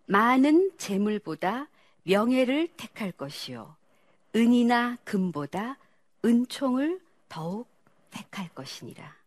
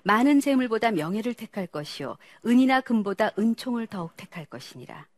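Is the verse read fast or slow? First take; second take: slow; fast. First: The verse is read slowly with clear articulation. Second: The verse is read quickly. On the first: "천천히 또박또박" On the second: "또 빨리 읽어보세요"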